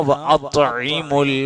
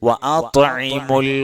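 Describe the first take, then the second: No difference in how they are said.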